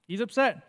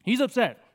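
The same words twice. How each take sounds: First: Said in the usual way. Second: Mock upset, a bit higher. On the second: Shown as a demonstration. Preacher acting Paul's anger for the congregation. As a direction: play Paul as upset. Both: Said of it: "really worked up here".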